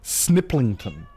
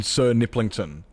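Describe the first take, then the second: First: "Sniplington" with no er between S and n; "Sniplington", first syllable squeezed into "Snip"; dropped er. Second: "Sir Niplington" with the "Sir" sounded out; "Sir Niplington", er vowel kept in "Sir"; full syllables. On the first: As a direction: run S straight into n in "Sniplington". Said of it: "you don't even pronounce the er". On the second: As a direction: say "Sir Niplington" with a separate "Sir" before "Niplington". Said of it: "don't even pronounce the, the er". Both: Shown as a demonstration.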